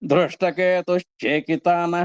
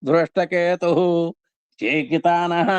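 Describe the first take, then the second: First: The words are joined with a sh sound between them. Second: The words are said separately without a sh sound.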